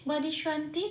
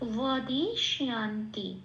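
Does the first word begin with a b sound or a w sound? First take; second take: b sound; w sound. First: It begins with b and has plain 'shan'. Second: It begins with w and has 'shyan'.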